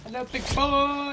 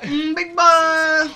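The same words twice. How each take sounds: First: High, slow, sultry purr; breathy vintage purr. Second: High, very slow, loud purr; breathy vintage purr. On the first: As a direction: purr it like an old-time vamp. Echoes flirt in put-on voice. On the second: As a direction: drag it out like a vamp. Echoes flirt, louder and slower. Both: Pretend.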